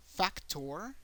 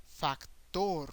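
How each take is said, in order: First: "Factor" as FAC-tor, rising at the end; English "Factor", first syllable punched; English pronunciation. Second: "factor" as fac-TOR, stress on the last syllable; Spanish "factor", open vowels, falling end; Spanish pronunciation. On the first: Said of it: "an emphasis in English in the first syllable". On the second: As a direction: slowly land on a long TOR in "factor". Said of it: "make an emphasis in the last syllable". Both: Shown as a demonstration.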